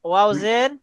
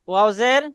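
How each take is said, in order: Both takes have the same delivery.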